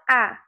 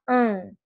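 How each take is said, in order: First: The vowel is plain, with no nasal sound. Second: The vowel is nasal, sounding through the nose. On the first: The speaker calls it wrong. "Você não fala A" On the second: The speaker calls it right. "nasaliza essas vogais ... você fala an"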